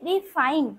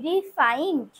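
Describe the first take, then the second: First: The word ends without a final d sound. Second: The word ends with a final d sound. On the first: This is how it is said in Bengali. "রিফাইন আমরা বলছি" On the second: This is how it is said in Hindi. "হিন্দিতে একটা ড উচ্চারণ করছি"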